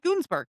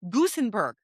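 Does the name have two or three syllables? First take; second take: two; three. First: The name is said with two syllables. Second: The name is said with three syllables. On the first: The speaker calls it wrong. "Not Gunsberg" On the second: The speaker calls it right. "I had to look up how to pronounce this name"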